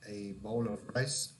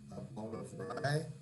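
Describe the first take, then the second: First: The final s sound of rice is pronounced. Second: The final s sound of rice is dropped. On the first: Listeners hear the intended food. The speaker calls it right. "the second one, rice, is correct" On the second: Listeners hear a different grain used for bread. The speaker calls it wrong. "One is wrong, Rye is not correct"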